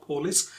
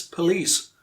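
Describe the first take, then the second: First: Police with a full PO, stressed on the first syllable; mispronunciation demo. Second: Police with stress on the second syllable; corrected pronunciation. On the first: Teacher shows learners the common mistake, police stressed at the front. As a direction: say police as POH-lis. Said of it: "It's not police". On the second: Teacher corrects the common mistake, police stressed at the end. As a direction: say police as puh-LEECE, hitting the end. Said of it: "it's police". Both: Shown as a demonstration.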